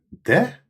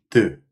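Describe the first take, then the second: First: The vowel is a full, clear e sound. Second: The vowel is a weak, reduced schwa sound. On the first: The speaker calls it wrong. "We schrijven de" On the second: The speaker calls it right. "maar het klinkt als de"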